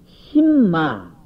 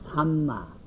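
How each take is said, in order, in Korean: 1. 첫 음절에는 'i' 모음이 있다. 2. 첫 음절에는 'a' 모음이 있다.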